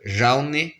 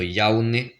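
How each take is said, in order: First: The word begins with a J sound. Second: The word begins with a Y sound. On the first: This is how it is said in the mountains. "ça va être J" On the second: This is how it is said in some areas. "le J peut se prononcer comme un Y aussi"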